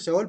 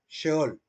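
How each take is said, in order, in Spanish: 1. La palabra empieza con un sonido 's' simple. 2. La palabra empieza con un sonido 'sh'. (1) "Algunos dicen Seol porque lo ven la letra S" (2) "Se debe pronunciar Sheol"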